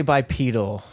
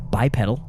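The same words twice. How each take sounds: First: "bipedal" with a long E, like "peedle"; "bipedal" rhyming with needle; long-E pronunciation. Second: "bipedal" with a short E, like "pedal"; "bipedal" as bye-PED-ul; short-E pronunciation. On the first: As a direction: say "bipedal" as bye-PEE-dul. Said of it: "I typically say bipedal". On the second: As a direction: say "bipedal" to rhyme with medal. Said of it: "how do you go for that word". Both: Shown as a demonstration.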